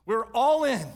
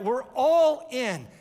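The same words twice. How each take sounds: First: ALL hit loud at normal pace; quick strong proclamation; punchy declaration. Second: ALL stretched, high and loud; slow stressed repeat. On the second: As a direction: drag out all for weight. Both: Acted.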